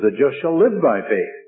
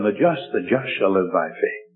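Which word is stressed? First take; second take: live; just. First: The word "live" carries the main stress. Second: The word "just" carries the main stress. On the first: The focus is on how the righteous live. "he put the emphasis on the life" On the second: The focus is on who is righteous. "he put the emphasis on the just"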